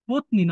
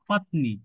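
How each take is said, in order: First: The word is said with Bengali-style vowels. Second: The word is said with Sanskrit-style vowels. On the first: The speaker calls it wrong. "পত্নী না" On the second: The speaker calls it right. "সংস্কৃত যখন আমরা বলবো"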